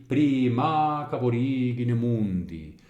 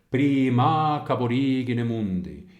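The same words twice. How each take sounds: Both takes have the same delivery.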